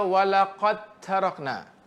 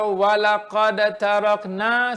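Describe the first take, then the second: First: The d is fully merged into the t. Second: The d is released with a bounce before t. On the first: The speaker calls it right. "Kena baca" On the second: The speaker calls it wrong. "saya mengenakan datu qalqalah ... tapi saya tak idghamkan kamil kepada huruf ta"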